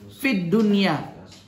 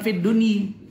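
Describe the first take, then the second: First: The last word ends with an 'a' vowel. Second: The last word ends with an 'i' vowel. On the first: The speaker calls it right. "kita ngomong fid dunia" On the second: The speaker calls it wrong. "bukan fit duni"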